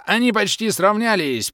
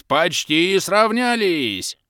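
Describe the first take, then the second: First: High, loud excited call with the stress on "Они"; excited commentator. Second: Slow, high, loud call, "сравнялись" stretched long; drawn-out call. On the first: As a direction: shout "Они" out as the race tightens. (взволнованный выкрик комментатора, ударение на «Они») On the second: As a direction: drag "сравнялись" out like a commentator at the finish. (протяжный, растянутый выкрик «сравнялись») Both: A narrator's reading. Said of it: "всё комментирующая".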